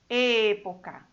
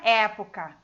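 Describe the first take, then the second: First: The first vowel is a closed E. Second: The first vowel is an open E. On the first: The speaker calls it right. "É sempre fechado" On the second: The speaker calls it wrong. "não é época"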